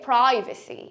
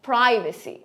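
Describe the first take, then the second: First: It is said with an American accent. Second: It is said with an American accent.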